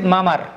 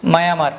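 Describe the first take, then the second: First: মামার as ma-mar, with no glide; merged vowels. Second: মায়ামার as ma-ya-mar; inserted y glide. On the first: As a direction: join the two a sounds into one in মামার. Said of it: "হওয়া উচিত". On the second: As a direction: slip a y between the a sounds in মায়ামার. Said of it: "কিন্তু আমরা বলি কি". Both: Shown as a demonstration.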